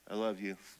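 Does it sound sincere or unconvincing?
unconvincing. It is said flatly and unconvincingly.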